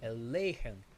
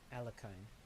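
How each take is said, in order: First: The middle consonant is a breathy h sound. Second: The middle consonant is a hard k sound. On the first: This is the original Russian-style pronunciation. "as tricky as it is for non-Russian speakers to pronounce" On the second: This is the simplified form used for ease of reference. "It's easier for me to pronounce it Alekhine"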